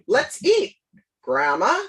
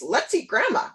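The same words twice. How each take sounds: First: A pause comes before the word grandma. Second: No pause comes before the word grandma. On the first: Grandma is being addressed. "as opposed to" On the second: Grandma is the food. "with no no comma in there"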